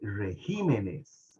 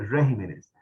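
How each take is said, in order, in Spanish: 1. La sílaba tónica está en la segunda sílaba. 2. La sílaba tónica está en la primera sílaba. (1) "se dice regímenes, correcto" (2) "no se dice regímenes"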